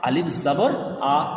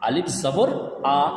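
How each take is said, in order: Both takes have the same delivery.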